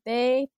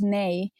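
First: The word begins with a d-like sound. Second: The word begins with a clear n sound. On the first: "Why do you say they?" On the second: "yes is nay"

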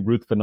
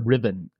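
First: The name is said with a th sound. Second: The name is said with a v sound. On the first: "I still slip and say Ruthven a lot" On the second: "Or Riven"

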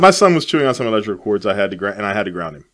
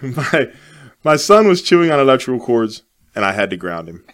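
First: It is said at a normal pace. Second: It is said slowly and deliberately.

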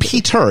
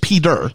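First: The middle consonant is a crisp T sound. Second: The middle consonant is a D sound. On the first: The speaker calls it wrong. "it's not Peter" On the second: The speaker calls it right. "it's like Peterson, but with a D"

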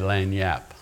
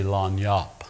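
First: It is pronounced the general, non-Louisiana way. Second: It is pronounced the South Louisiana Cajun way. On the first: "If you're not from Louisiana, you'd probably say lanyap" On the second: "the Cajuns in South Louisiana say lanyap"

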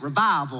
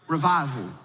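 First: It is said in a Southern accent. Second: It is said in a neutral accent.

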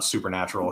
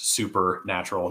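First: It is said as one single joined word. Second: It is said as two separate words, super natural. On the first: It was beyond the natural world. The speaker calls it wrong. "not supernatural" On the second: It was extremely natural. The speaker calls it right. "That's two words"

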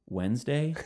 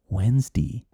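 First: It is said in a plain everyday pronunciation. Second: It is said in an old-fashioned elderly pronunciation. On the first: "instead of Wednesday" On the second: "You start saying Wednesday"

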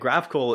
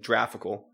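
First: The word begins with a hard G sound. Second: The word begins with a J sound. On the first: The speaker calls it right. "graphical is pronounced with a G" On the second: The speaker calls it wrong. "not a J as in graphical"

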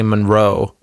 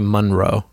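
First: The stress is on the second syllable. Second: The stress is on the first syllable. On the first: The speaker calls it right. "I stress the Ro" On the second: The speaker calls it wrong. "I don't say Munro"

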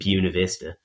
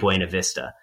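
First: Buena is said the way locals say it. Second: Buena is said the standard Spanish way. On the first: This is how the town's residents say the name. "they get mad at you if you don't pronounce it Buena Vista" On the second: This is how the name should be pronounced. "Which is, you know, what it should be"

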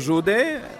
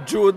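First: The name is said with a Romanian pronunciation. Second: The name is said with a British pronunciation.

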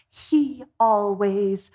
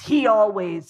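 First: It is said in a fond, affectionate tone. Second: It is said in an irritated, negative tone. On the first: The habit is seen as endearing. "oh, he's so cute" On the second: The habit is seen as a complaint. "the attitude flips and the tone flips"

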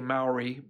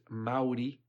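First: The word has the usual English pronunciation. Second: The word has the native Māori pronunciation. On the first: This is how English speakers commonly say it. The speaker calls it wrong. "We say Maori" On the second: This is how the people themselves say it. The speaker calls it right. "the correct pronunciation is Maori"

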